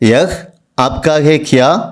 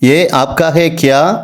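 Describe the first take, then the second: First: The first word is a full 'yah' with final h. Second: The first word is reduced to a short 'ye'. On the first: This is the standard form. "யஹ் ஆப்கா ஹே கியா அப்படின்னு சொல்லணும்" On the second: This is the casual spoken form. "பேச்சு வழக்கில் இதே வார்த்தையை ஏ ஆப்கா ஹே கியா அப்படின்னு சொல்லலாம்"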